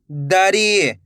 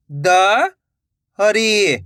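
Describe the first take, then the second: First: Said in the usual way. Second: "दरी" split with a pause; rising द, pause, then री in "दरी"; syllable by syllable. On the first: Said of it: "तो मिलके बन जाएगा". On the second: Shown as a demonstration. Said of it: "एक एक अक्षर का उच्चारण". ("दरी" को तोड़कर, द... री)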